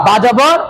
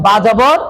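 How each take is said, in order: Both takes have the same delivery.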